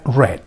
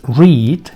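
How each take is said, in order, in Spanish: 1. La palabra suena como red. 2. La palabra no suena como red. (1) "Este verbo en pasado o en participio será read" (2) "este verbo en su forma de presente o de infinitivo es read"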